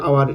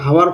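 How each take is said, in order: First: The word begins directly with a vowel sound. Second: The word begins with an audible h sound. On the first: The speaker calls it right. "এটা বলি আওয়ার" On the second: The speaker calls it wrong. "এটা আমরা হাওয়ার কখনো বলি না"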